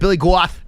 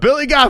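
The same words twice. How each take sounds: First: The name is said in a New England accent. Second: The name is said in a plain accent.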